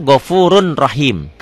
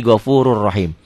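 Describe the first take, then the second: First: "Ghafurun Rahim" with a clear N before R; N as written. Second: "Ghafurur Rahim" with no N, one rolled R; N merged into R. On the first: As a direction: keep "Ghafurun" and "Rahim" apart with the N. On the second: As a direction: join "Ghafurur" to "Rahim" on a doubled R. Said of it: "ini tanwinnya baca satu". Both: Shown as a demonstration.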